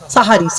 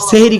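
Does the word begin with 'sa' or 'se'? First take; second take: sa; se. First: The first syllable has an 'a' vowel. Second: The first syllable has an 'e' vowel. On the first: The word means the pre-dawn meal. The speaker calls it right. "কি বললাম? সাহারি।" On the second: The word means doing magic. The speaker calls it wrong. "সেহেরি খবরদার বলবেন না"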